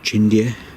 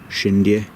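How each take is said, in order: First: The name begins with a ch sound. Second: The name begins with an sh sound. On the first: "Some people pronounce it Chindia"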